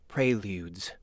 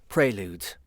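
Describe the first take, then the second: The two takes are said the same way.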